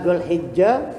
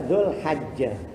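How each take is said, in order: First: The vowel after the h is 'i'. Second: The vowel after the h is 'a'. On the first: This is the preferred reading. "yang paling unggul" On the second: This is an allowed alternative reading. "boleh juga dibaca Dzulhajjah"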